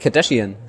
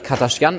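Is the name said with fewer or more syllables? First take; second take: more; fewer. First: The name is said with one extra syllable. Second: The name is said with one syllable fewer. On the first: This is the common outside pronunciation. The speaker calls it wrong. "Nicht Kardashian. Da ist dann auch schon wieder eine Silbe zu viel drin" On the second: This is how it is said in Armenia. The speaker calls it right. "in Armenien spricht man das auch eigentlich Kardashian aus"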